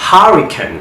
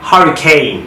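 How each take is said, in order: First: হারিকেন as "HURRI-kun", higher pitched; weak short ending on হারিকেন; British reduced last vowel in হারিকেন; British pronunciation. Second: হারিকেন as "HURRI-cane"; full long "ay" ending on হারিকেন; American "cane" ending in হারিকেন; American pronunciation. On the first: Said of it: "কীভাবে ব্রিটিশে sound করে". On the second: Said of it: "কীভাবে আমেরিকানরা sound করে". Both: Shown as a demonstration.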